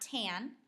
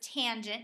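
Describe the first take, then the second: First: The word is clipped short to one syllable. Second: The word is said in full with two syllables. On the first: The speaker calls it wrong. "not tan" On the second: The speaker calls it right. "You would read this as tangent"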